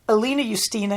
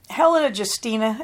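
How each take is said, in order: First: Helena is said so it rhymes with Justina. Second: Helena is said so it does not rhyme. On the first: This is the intended, joking form of the name. "it's meant to be funny that it rhymes" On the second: This is the usual modern way of saying it. "as we would pronounce it"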